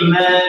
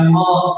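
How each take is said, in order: First: The vowel is light and open, like 'a'. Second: The vowel is dark and rounded, like 'o'. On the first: The speaker calls it right. "oh ma tipis ma" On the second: The speaker calls it wrong. "bukan mo"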